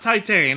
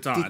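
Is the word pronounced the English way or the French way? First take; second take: English; French. First: The word is pronounced like English 'Titan'. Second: The word is pronounced with French sounds. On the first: The speaker calls it wrong. "not Titan. I know that's how it looks" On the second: The speaker calls it right. "but it's French. It's Titan"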